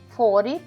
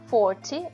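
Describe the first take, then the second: First: It is said with an American accent. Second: It is said with a British accent. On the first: "pronúncia americana" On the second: "é a britânica"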